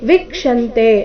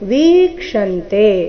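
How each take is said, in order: First: The first vowel is short. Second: The first vowel is long. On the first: The speaker calls it wrong. "ಅಂತ ಇಲ್ಲ" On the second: The speaker calls it right. "ವಿ ದೀರ್ಘ ಇದೆ"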